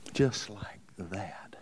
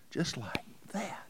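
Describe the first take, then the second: First: Slow, low breathy whisper; hushed slow whisper for effect. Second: Soft whisper lifting at the end; hushed echo, rising tune. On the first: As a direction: drop to a whisper and draw it out. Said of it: "repeated for effect, whispered". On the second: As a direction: whisper it again with a lift. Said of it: "repeated whisper, rising". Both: Real, not acted.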